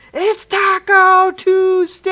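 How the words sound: It is said in a silly taco character voice.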